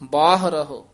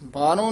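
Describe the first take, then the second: First: Both h sounds are clearly pronounced. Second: The word ends in a plain o, no h. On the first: The speaker calls it right. "ਦੋਵੇਂ ਹਾਹੇ ਬੋਲਨੇ ਆ" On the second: The speaker calls it wrong. "ਬਾਹਰੋਂ ਨਹੀਂ ਕਹਿ ਦੇਣਾ"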